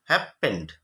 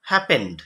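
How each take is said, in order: First: "happened" split as hap, gap, pend, lower; lower-pitched sounding-out of "happened" in two parts; broken into syllables. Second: Said in the usual way. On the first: Shown as a demonstration. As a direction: pause between the syllables of "happened". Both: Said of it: "ভাঙলে কি হবে?".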